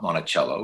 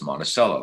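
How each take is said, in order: First: It is said the outsider's way. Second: It is said the local Minnesota way.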